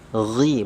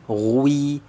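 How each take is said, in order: First: The gh sound is only slightly thickened. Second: The gh sound is strongly thickened and rounded. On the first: The speaker calls it right. "kadar tebalnya yang berkurang" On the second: The speaker calls it wrong.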